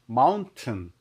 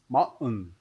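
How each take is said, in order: First: The word is said plainly, clearly and slowly. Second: The word sounds like an American accent. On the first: "just you say mountain is okay" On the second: "if you can can't pronounce mountain"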